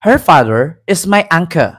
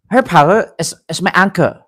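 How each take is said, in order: First: Lightly imitated British accent; a hint of put-on British English; mock British accent. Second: Halting put-on Chinese accent; lightly imitated Chinese-accented English; mock Chinese accent. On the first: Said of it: "hindi tayo mag-British accent". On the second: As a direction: fake a Chinese accent, stumbling slightly. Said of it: "Chinese accent".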